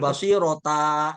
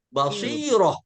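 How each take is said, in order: First: The word ends in a ta sound. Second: The word ends in a soft h sound. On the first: The speaker calls it wrong. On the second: The speaker calls it right.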